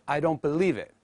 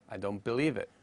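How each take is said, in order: First: The N in 'don't' keeps its N sound. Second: The N in 'don't' becomes an M sound. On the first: "Instead of I don't believe it" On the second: "we replace the N sound by the M sound"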